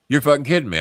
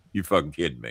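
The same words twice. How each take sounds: First: Higher-pitched burst of disbelief; incredulous. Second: Low, soft incredulous question; stunned disbelief. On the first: Mark hearing the firing confirmed, incredulous. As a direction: exclaim it, unable to believe it. Mark's second, stronger disbelief. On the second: Mark just told he is being fired, quietly stunned. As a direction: ask it under the breath, stunned. Mark's first stunned reaction to firing. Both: Retold or imitated.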